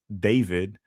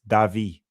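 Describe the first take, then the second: First: The name is said with English pronunciation. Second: The name is said with Latin American pronunciation. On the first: The speaker calls it wrong. "he would get angry when we would call him David" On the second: The speaker calls it right. "that's probably how you pronounce it in whatever Latin country he was from"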